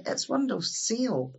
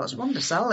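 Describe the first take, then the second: First: "windowsill" as "WIN-doh-sill", slow and a little higher; English pronunciation. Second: "windowsill" as "WUN-deh-sell", ending on a rise; insisting on the Ulster "windowsill"; Ulster Scots pronunciation. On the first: Retold or imitated. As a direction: mimic the English visitor's "windowsill". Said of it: "they'll say". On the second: Shown as a demonstration. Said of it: "No, it's not".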